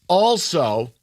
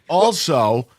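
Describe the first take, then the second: The two takes are said the same way.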